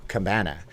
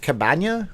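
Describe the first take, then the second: First: Said in the usual way. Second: CABANA with a Spanish-style "nya" ending, higher; questioned pronunciation. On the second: Shown as a demonstration. Streamer unsure of the word, trying CABANA as "ka-BAN-ya".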